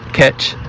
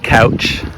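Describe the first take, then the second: First: The ow vowel is flattened to ah, Pittsburgh style. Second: The ow vowel is a normal diphthong.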